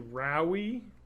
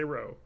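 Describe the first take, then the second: First: The name ends with an extra ee vowel. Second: The name ends on the oh vowel. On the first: The speaker calls it wrong. "people mispronounce my name constantly" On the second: The speaker calls it right. "Just the E is silent. Just say Rowe"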